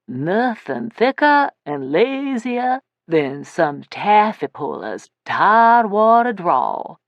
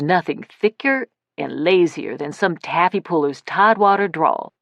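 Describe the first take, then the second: First: It is said in a drawling Tidewater accent. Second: It is said in the narrator's plain accent.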